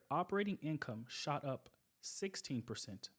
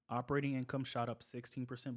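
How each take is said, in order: First: It is spoken at a slower, deliberate pace. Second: It is spoken at a normal, quicker pace.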